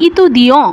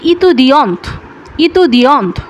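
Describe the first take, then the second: First: ইতুদিয়ঁ said with a nasal ending and no final t; masculine étudiant. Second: ইতুদিয়ন্ত said with the final t sounded; feminine étudiante. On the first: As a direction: end ইতুদিয়ঁ on a nasal vowel, t silent. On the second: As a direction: close ইতুদিয়ন্ত with a clear t at the end. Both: Shown as a demonstration. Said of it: "এটার উচ্চারণ হচ্ছে".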